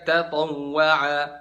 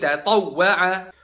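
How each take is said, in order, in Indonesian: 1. Konsonan yang digandakan tidak diberi tekanan tambahan. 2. Konsonan yang digandakan diberi tekanan tambahan yang jelas.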